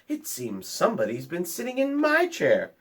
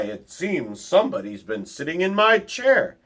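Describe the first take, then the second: First: It is said in Mama Bear's soft voice. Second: It is said in Papa Bear's deep voice.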